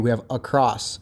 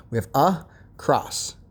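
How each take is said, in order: First: Said in the usual way. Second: "a cross" said slowly as two separate parts, a and cross; slow down and pull "a cross" apart into two syllables; split into syllables. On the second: Shown as a demonstration. Teacher showing pupils how to split the word into syllables. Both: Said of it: "that tells you there's two syllables".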